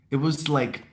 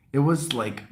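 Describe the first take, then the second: No difference in how they are said.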